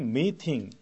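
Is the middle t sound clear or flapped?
clear. The middle t is pronounced clearly and crisply. "영국 발음은 meeting, 이게 T가 정확하게 들리는 발음이죠"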